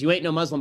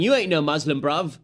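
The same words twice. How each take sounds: First: Quoted British retort. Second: Louder Cockney-ish shout, mimicking; mock shouted British retort. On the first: Retold or imitated. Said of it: "the guy who says". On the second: Passer-by shouting at attacker in London accent. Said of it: "he was shouting".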